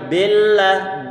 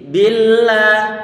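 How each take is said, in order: First: The i vowel is dull, with lips barely spread. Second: The i vowel is bright, with lips spread. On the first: The speaker calls it wrong. "Kalau ragu-ragu dalam menarik bibir kita" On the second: The speaker calls it right. "bibir kita kita tarik ke bawah ataupun ke belakang"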